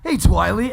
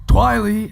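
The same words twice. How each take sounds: First: High, loud greeting in character; character catchphrase. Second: High, loud character call; character catchphrase. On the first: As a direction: hail them with a big character call. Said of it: "I say, uh". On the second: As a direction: call out the nickname brightly. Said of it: "actually, that wasn't right at all". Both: Acted.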